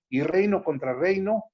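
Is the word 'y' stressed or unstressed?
unstressed. The word 'y' is said plainly, without emphasis.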